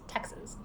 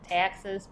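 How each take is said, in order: First: It is said in a plain standard accent. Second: It is said in a strong Southern accent. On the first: "but it's Texas" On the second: "if you want to say it like really southern"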